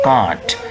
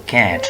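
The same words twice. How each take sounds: First: It is said with a British accent. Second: It is said with an American accent. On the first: The speaker calls it wrong. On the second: The speaker calls it right. "In American English, that is can't"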